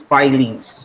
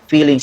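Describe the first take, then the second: First: The first vowel sounds like 'eye'. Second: The first vowel sounds like 'ee'. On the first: The speaker calls it right. "it is filings" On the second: The speaker calls it wrong. "it is not pronounced as feelings"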